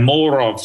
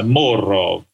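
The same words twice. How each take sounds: First: Said in the usual way. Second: Slow, lightly put-on Russian accent on "more of"; a hint of a Russian brother drawing out "more of"; mock Russian accent. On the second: Shown as a demonstration. Speaker demoing his Russian brother in a light Russian accent. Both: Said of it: "if you say it in a funny voice".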